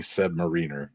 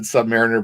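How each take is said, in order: First: Submariner with REEN stressed, like submarine; rival submarine pronunciation. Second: Submariner with the stress on MARE; usual mariner pronunciation. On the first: Quoting diehards from the comic store, sub-muh-REEN-er. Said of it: "fight you over it being". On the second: Telling friends how they always said it, sub-MARE-ih-ner. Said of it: "I've always said Submariner". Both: Shown as a demonstration.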